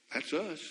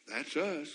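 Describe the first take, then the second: No difference in how they are said.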